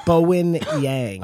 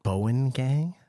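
First: "Bowen Yang" said slowly with a Y on Yang; corrected name. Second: "Bowen Gang" with a hard G on Gang, asked as a question; wrong name. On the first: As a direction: carefully repeat "Bowen Yang" with Y, falling. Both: Real, not acted.

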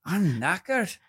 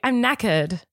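First: High-pitched British attempt slipping into Irish; put-on Irish lilt, higher; Irish-sounding accent. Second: British accent, rising at the end; put-on British, not Irish. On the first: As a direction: try British but land in Irish. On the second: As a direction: correct it to a plainer British accent. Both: Shown as a demonstration. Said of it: "You see, that's Irish".

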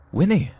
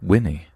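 First: Calling out a name in a sudden high burst; excited exclamation. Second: Said in the usual way. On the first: Retold or imitated. Narrator spots old friend Winnie, calls out excitedly. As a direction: shout her name, thrilled to spot her. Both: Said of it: "I exclaimed".

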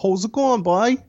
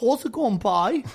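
First: High, singsong Cork accent. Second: Copied Cork accent, less high; Cork accent attempt. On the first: Showing [name] how it is said, high Cork accent. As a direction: greet a pal in lilting Cork Irish. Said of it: "just say it like this". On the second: Copying the Irishman's greeting, imitated Cork accent. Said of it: "do a Cork accent". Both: Shown as a demonstration.

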